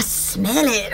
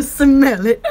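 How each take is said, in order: First: Slow, low mock announcer "smell it"; radio announcer voice. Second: "smell it" broken up by laughter; can't keep the ad voice straight for laughing. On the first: Pitching a scratch and sniff commercial, slow mock announcer. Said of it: "I sound like a radio announcer". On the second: Pretend. Giggling at her own sniffing commercial, laughing through it. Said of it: "scratch and sniff commercials".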